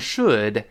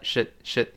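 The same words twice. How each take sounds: First: The word is said in its full, strong form. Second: The word is said in a weak, quick form. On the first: "重读的时候读成should" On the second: "弱化成should should 发should 一带而过"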